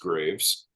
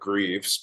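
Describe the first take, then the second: First: The vowel sounds like the one in 'grave'. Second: The vowel sounds like the one in 'grieve'. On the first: This is the name's proper pronunciation. "but it is Graves" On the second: This is how some relatives say the name. "half of my family pronounces it Greaves"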